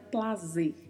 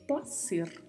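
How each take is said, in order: First: The middle consonant has a buzzing z sound. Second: The middle consonant has a hissing s sound. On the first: The speaker calls it wrong. "E não tem som de Z, ... não é plazer" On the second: The speaker calls it right. "é placer, porque é escrito com letra C"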